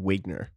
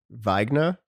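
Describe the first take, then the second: First: The name is pronounced the anglicized way. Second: The name is pronounced the German way. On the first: This is how the family says it. "my parents called me Wigner" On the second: This is the technically correct original form. "it should be technically Wagner because it's German"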